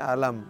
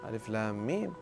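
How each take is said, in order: First: The letters are run together into one word. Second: Each letter is named separately by its name. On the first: The speaker calls it wrong. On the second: The speaker calls it right.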